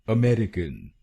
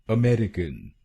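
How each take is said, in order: The two takes are said the same way.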